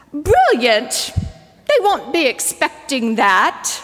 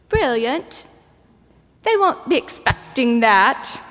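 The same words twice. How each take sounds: First: Put-on New Zealand accent. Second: Lightly imitated New Zealand kid; a touch of a child's New Zealand accent. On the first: A little nymph answers the Lord in a New Zealand accent. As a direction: imitate a precious New Zealand child. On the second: Preacher echoes the littlest child's line in a light New Zealand accent. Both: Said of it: "precious New Zealand accent".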